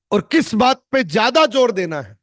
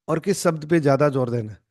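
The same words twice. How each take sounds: First: "ज्यादा जोर" punched high and loud; effective emphasis. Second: Said in the usual way. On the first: Shown as a demonstration. Coach showing students the more effective delivery, emphatic stress. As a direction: lift and hit "ज्यादा जोर" hard. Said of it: "इससे ज्यादा ये effective रहेगा". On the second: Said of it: "या तो मैं ये बोलूंगा".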